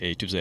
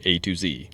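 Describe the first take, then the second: First: The last letter is said the English way, zed. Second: The last letter is said the American way, zee.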